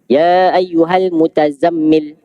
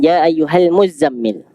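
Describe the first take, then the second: First: A separate t sound comes before the z. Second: The t merges into a doubled z sound. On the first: This is a minority reading that keeps the original form. "Mereka baca dengan mutazammil" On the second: This is the majority reading with the t assimilated. "diidghamkan tak tu pada huruf zai"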